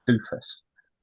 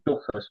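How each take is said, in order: First: The first vowel is a long 'oo' sound. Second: The first vowel is a short 'uh' sound. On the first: It mocks the player by making the name sound like 'doofus'. "I'm going to pronounce it Doofus" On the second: This is how the player himself might say it. "he might pronounce it Duffus"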